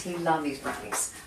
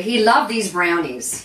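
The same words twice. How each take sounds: First: Dropped to a softer aside; soft repeat. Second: Loud, drawn-out declaration; emphatic fondness. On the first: Host repeating her dad's favourite, softly. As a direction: let it settle quietly. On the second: Host telling viewers about her dad's favourite, emphatically. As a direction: say it big and slow. Fond memory of dad, said emphatically. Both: Real, not acted.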